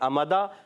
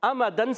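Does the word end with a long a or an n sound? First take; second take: long a; n sound. First: The word ends with a long a. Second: The word ends with an n sound.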